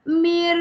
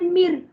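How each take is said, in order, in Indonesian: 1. Bunyinya ditahan dalam waktu yang lama. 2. Bunyinya pendek dan tidak ditahan. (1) "Jangan baca mir. Jangan pegang lama-lama" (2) "So bacaan dia mir"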